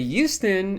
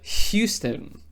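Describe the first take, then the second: First: The word starts without an H sound. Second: The word starts with an H sound. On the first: "I still will say Houston" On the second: "instead of Houston"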